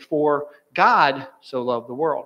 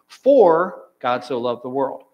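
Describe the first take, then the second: First: The stress is on "God". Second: The stress is on "For".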